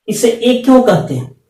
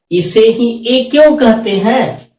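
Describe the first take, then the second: First: Said in the usual way. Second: Slow, with क्यों drawn out and leaned on; stress on क्यों. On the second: Shown as a demonstration. Teacher pressing the class on why, stressing क्यों slowly. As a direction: lean hard on क्यों and slow the whole question. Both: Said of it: "अब हम आपसे एक question उठा रहे हैं".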